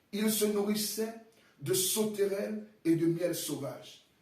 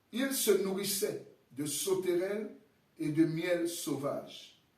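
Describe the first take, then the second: Both takes have the same delivery.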